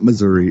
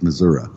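First: The word is said in the ordinary, non-local way. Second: The word is said the way locals say it. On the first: The speaker calls it wrong. "It's not Missouri" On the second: The speaker calls it right. "I got to say it like Missouri. ... it's Missouri"

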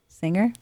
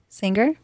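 First: The G is not pronounced as a stop. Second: The G is pronounced as a hard stop. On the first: The speaker calls it right. "There you go. You're getting better" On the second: The speaker calls it wrong. "There's a bit of a, a hard G"

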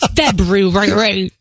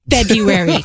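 First: The first R sound is pronounced. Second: The first R sound is dropped. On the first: The speaker calls it wrong. "not February" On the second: The speaker calls it right. "don't pronounce the first R in February. It's February"

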